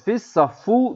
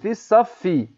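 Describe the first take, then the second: First: The word ends with an 'oo' vowel. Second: The word ends with an 'ee' vowel. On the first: The speaker calls it wrong. "Fissaffu değil" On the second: The speaker calls it right. "Şeddenin altında ise i diye okunur"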